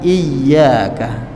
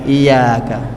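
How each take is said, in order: First: The y sound is held long and doubled. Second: The y sound is short and single. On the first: Only to You. The speaker calls it right. "Seharusnya ditasydidkan ya-nya" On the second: The meaning is changed. The speaker calls it wrong. "Tapi ada orang membaca iyyaka"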